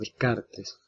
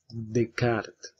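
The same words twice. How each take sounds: First: The name is pronounced the Spanish way. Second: The name is pronounced the French way. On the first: "Una pronunciación más eh, de nuestro español" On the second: "el filósofo francés René Descartes"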